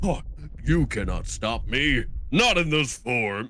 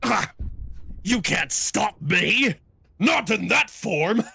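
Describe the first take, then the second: First: It is said in a plain, normal voice. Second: It is said as if the speaker is hurt.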